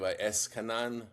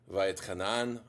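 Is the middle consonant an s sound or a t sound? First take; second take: s sound; t sound. First: It is said with an s sound, Yiddish style. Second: It is said with a t sound, not Yiddish.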